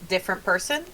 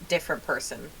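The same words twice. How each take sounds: First: The voice rises at the end like a question. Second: The voice falls at the end like a statement. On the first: It is asked as a question. "it sounds more like a question this time" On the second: It is said as a statement. "she'll repeat back in your voice"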